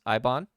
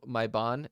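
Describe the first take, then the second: First: "Ibon" with the opening M dropped; silent M. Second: "my Bon" with the M sounded; M pronounced. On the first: Game master shows the local way, "Ibon" with M left off. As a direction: start "Ibon" straight on the "eye" vowel, no M. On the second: Game master shows the written name, "my Bon" with its M sounded. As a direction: say "my Bon" starting on a clear M. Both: Shown as a demonstration. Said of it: "they do not pronounce M's".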